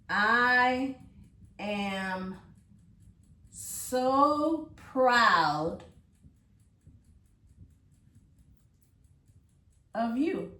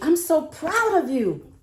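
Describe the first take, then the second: First: It is said calmly, without excitement. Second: It is said with excitement.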